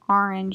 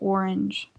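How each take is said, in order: First: The first vowel is not a clear O sound. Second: The first vowel is a clear O sound. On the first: This is the speaker's own regional way of saying it. "people have made fun of me for saying orange" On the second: This is the way other people expect it to be said. "instead of orange"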